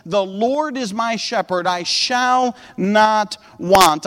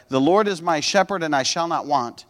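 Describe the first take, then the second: First: Slow, weighty reading with spaced-out words; deliberate scripture reading. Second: "shepherd and I shall not want" run on as one casual sentence; misread run-together reading. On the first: Acted. Preacher quoting the psalm to the congregation, slow and deliberate. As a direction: read it out slowly, each word given room. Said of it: "The Bible says". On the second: Shown as a demonstration. Preacher showing how he misread it when younger, run together casually. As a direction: read it straight through, understated, without weighty pauses. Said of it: "I read it this way".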